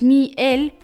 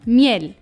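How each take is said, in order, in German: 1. Das Wort wird in zwei getrennte Silben geteilt. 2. Das Wort wird zusammenhängend gesprochen, mit Betonung auf dem Ende. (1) "dass Mi-El nicht so ausgesprochen wird" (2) "sondern Miel. Das heißt, die Betonung liegt auf der letzten Silbe"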